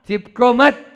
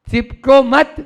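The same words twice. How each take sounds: No difference in how they are said.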